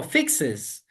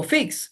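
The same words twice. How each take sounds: First: "fixes" said slowly, stressing the "-es" ending; slow added ending. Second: Said in the usual way. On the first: Shown as a demonstration. Teacher shows students the slow third-person form "fixes". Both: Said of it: "sino fixes".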